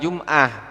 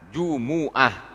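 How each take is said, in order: First: The word has two syllables, no middle vowel. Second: The word has three syllables, with a middle vowel. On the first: The speaker calls it wrong. "bukan Jum'ah" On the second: The speaker calls it right. "Yang betul itu tok Jumu'ah"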